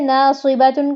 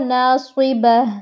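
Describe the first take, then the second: First: The word ends with a 'tun' sound. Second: The word ends with an 'h' sound.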